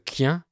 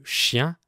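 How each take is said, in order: First: QUIEN, hard k opening for chien; Northern French CH. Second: Said in the usual way. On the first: Shown as a demonstration. Teacher showing how they name the dog, hard k in QUIEN. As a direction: say QUIEN with a k instead of sh. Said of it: "Ils disent quien au lieu de chien". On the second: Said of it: "au lieu de chien".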